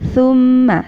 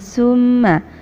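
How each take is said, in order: First: The first consonant is a soft th sound. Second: The first consonant is a plain s sound. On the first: The speaker calls it right. "tapi thumma, sa ya" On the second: The speaker calls it wrong. "bukan summa"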